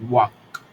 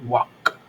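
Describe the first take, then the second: The two takes are said the same way.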